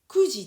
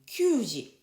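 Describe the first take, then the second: First: The word begins with the sound 'ku'. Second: The word begins with the sound 'kyu'. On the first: The speaker calls it right. "Kuji des. Kuji, on dit kuji" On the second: The speaker calls it wrong. "on ne dit pas eh, kyuji"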